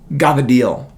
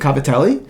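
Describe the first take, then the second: First: The word is shortened, with its final vowel dropped. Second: The word is said in full, ending clearly.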